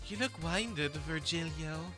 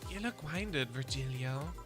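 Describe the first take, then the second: First: The voice is sassy and full, not whispered. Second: The voice is soft, calm and whispered. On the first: The speaker calls it wrong. "not the fucking uh sassier direction that I've been taking" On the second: The speaker calls it right. "It's supposed to be more whispered, more calming"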